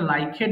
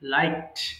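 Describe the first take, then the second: First: The ending is said as an extra syllable. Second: The ending is a plain t sound. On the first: The speaker calls it wrong. "এটা লাইকেড হবে না" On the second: The speaker calls it right.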